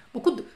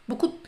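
No difference in how they are said.

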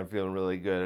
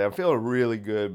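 First: Softer, lower repeat of feeling really good; quietly content. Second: Said in the usual way. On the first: Real, not acted. Talking to viewers, a soft contented repeat. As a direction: say it again to yourself, quietly. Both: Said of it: "I got a lot of energy today".

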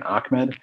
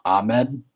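First: Ahmed said as "Ak-med". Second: Ahmed with no K sound before the m; Ahmed without K. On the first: Co-host repeating what they kept saying, Ahmed as "Ak-med". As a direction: put a K before the m in Ahmed. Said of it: "it's like a K sound". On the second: Co-host guessing the rookie's real name, Ahmed as "Ah-med". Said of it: "I think his name's". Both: Shown as a demonstration.

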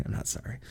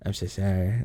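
First: Mischievous whisper under the breath; whispered aside. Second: Said in the usual way. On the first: Real, not acted. After apologizing for spoilers, a cheeky whispered aside. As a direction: slip the confession out in a whisper.

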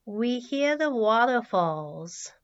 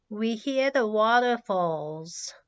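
The two takes are said the same way.

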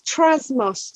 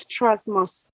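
First: Trasmos drawn out slowly; slow, careful name. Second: Said in the usual way. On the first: Shown as a demonstration. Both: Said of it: "so T R A S M O Z".

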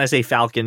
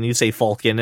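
First: Falcon with a short flat A, as in "pal"; own pronunciation of Falcon. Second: Falcon with an "aw" vowel, as "FAWL-kin"; co-host's pronunciation of Falcon. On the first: Host granting both ways of saying it, Falcon with the A of "pal". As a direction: say Falcon as "FAL-kin", rhyming start with "pal". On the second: Host quoting co-host's way, Falcon said as "FAWL-kin". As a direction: say Falcon starting like "fall". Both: Shown as a demonstration.

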